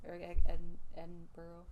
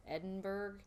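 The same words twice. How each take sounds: First: "Edinburgh" ending in "burro"; corrected pronunciation. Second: "Edinburgh" ending in a hard "burg"; unsure sounding-out. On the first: Reader copying the correction, "Edinburgh" said with "burr-oh". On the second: Reader asking what it's called, "Edinburgh" said with "burg". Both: Shown as a demonstration. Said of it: "Is that what it's called?".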